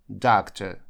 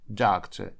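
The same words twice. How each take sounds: Both takes have the same delivery.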